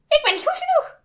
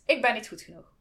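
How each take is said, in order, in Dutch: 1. Het wordt gezegd met een gekke, belachelijke stem. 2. Het wordt gezegd met een gewone spreekstem.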